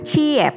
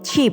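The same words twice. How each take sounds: First: The word is split into two syllables. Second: The word is said as one syllable. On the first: The speaker calls it wrong. "bukan cheap" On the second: The speaker calls it right. "dilafalkan sebagai cheap"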